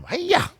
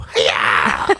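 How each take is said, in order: First: Very high-pitched mock karate cry; Miss Piggy. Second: Imitating a movie fighter's yelp; mock karate yell. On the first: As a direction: squeal it like a diva puppet chopping. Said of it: "Miss Piggy got it from". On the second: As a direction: make your own karate sound effect. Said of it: "There was no sound effects. And he would have to go".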